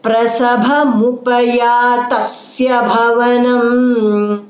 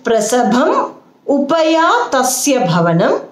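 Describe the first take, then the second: First: Prasabhamupayatasya run together in a slow chant; joined chant. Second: Prasabham, upayatasya, bhavanam spoken slowly as separate words; words separated. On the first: Teacher showing the joined option, Prasabhamupayatasya chanted as one. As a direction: chant Prasabhamupayatasya unbroken, on an even tone. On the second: Teacher showing the split option, prasabham upayatasya bhavanam word by word. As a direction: break after prasabham and before bhavanam. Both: Shown as a demonstration. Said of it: "or say it together".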